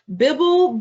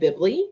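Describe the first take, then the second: First: The word ends in an l sound. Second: The word ends in an ee sound. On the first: "How did you know that this wasn't making a short or long vowel sound?" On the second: "Did you say bibly? I suspect you did not"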